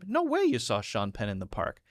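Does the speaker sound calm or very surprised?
calm. It is said as one calm, even statement. It is just an unusual thing to have happened. "this doesn't have to be super excited"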